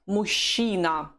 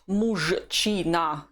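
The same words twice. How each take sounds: First: The word has its usual spoken pronunciation. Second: Each letter is pronounced as it is written. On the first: The speaker calls it right. "This is the usual Russian pronunciation of the word" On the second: The speaker calls it wrong. "not мужчина, the way it's written"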